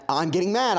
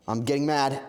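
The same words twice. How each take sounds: First: Louder, higher burst of annoyance; getting mad. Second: Mild irritation starting to build; first, more contained take of rising annoyance; getting mad. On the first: Streamer escalating at jumping pickles, madder. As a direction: let the irritation jump up a notch. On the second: Streamer annoyed at jumping pickles, getting mad. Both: Real, not acted.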